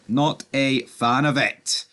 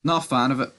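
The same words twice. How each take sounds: First: "Not a fan of it" drawn out slowly, word by word; slow emphatic repeat. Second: Said in the usual way. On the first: Real, not acted. Vlogger repeating his disapproval of it, slow and emphatic. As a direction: spell out "Not a fan of it" at half pace.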